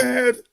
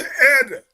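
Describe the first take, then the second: First: Said in the usual way. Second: "head" without its h, "ed"; Jamaican pronunciation. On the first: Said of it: "They don't say head". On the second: Shown as a demonstration. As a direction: drop the h of "head" and start on the vowel. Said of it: "they say head".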